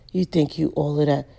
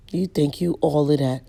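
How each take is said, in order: Both takes have the same delivery.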